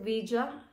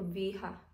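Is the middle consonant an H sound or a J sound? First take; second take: J sound; H sound. First: The middle consonant is a J sound. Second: The middle consonant is an H sound. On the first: The speaker calls it right. "you pronounce it Vija" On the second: The speaker calls it wrong. "hindi Viha"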